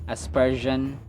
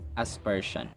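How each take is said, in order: First: The middle consonant is a voiced 'zh' sound. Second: The middle consonant is a voiceless 'sh' sound.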